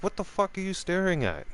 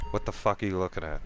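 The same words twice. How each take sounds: First: High-pitched, indignant retold question; indignant challenge. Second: Quick, understated confrontational question; offhand challenge. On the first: Drinker confronting the man across the table, high indignant challenge. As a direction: push the question up high, then drop at the end. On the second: Retold or imitated. Drinker to the man staring across the table, offhand challenge. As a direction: challenge him quickly without raising your voice. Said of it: "I said like that".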